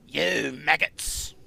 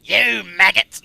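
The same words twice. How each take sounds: First: Slow, English-sounding take; accidental English accent. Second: Loud, slow drill sergeant yell; Soldier bellow. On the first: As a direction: drag it out with an English lilt. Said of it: "that's more English". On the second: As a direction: bellow at the recruits. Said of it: "Oh, soldier". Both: Retold or imitated.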